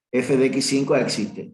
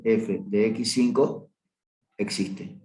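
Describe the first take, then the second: First: Said in the usual way. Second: Slow "F de X cinco", then "existe" whispered; slow emphatic repeat. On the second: Shown as a demonstration. (repetición lenta, "existe" susurrado)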